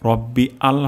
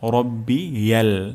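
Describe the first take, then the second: First: The two parts are said separately. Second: The two parts are linked into one word. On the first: The speaker calls it wrong. "রব্বি আল হবে না" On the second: The speaker calls it right.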